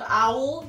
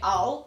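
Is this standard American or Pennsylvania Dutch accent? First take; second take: standard American; Pennsylvania Dutch. First: It is said in a standard American accent. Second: It is said in a Pennsylvania Dutch accent.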